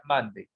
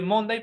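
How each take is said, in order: First: "Monday" said "MAN-dey", open first vowel; Monday as pronounced. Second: "Monday" read letter for letter, Spanish-style "MON-dai"; Monday as spelled. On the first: English teacher correcting the spelling reading, "Monday" pronounced MAN-dey. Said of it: "pero se pronuncia Monday". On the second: English teacher showing students the spelling, "Monday" said as MON-dai. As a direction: say "Monday" as written, with an o and a final "dai". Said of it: "Se escribe Monday". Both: Shown as a demonstration.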